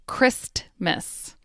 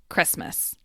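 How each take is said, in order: First: The T sound is clearly pronounced. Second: The T sound is dropped. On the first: "I enunciated each word" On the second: "The T in Christmas disappears"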